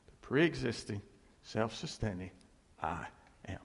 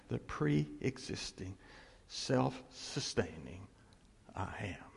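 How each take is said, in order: First: Said in the usual way. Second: Slow, soft, fading to a whisper on I am; hushed and reverent, ending in a whisper; solemn hush. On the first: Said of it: "That's who he says he is". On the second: Shown as a demonstration. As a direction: drop into awe, slowly. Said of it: "Which is saying".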